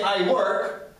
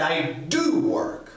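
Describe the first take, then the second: First: Said in the usual way. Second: "do" drawn out with emphasis; stress on do. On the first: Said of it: "there is difference when you say". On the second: Shown as a demonstration. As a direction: say it slowly, leaning on "do". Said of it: "is used for emphasis".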